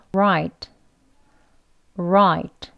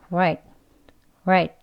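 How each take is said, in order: First: Full "Right" with a firm R; strong R word. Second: "Right" clipped, R nearly a W; weak R word. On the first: Teacher modelling a strong "Right" for learners, full and firm. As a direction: give "Right" a clear R and full length. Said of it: "다음은 맞는 right예요". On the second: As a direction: say "Right" fast and light. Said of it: "약형입니다". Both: Shown as a demonstration.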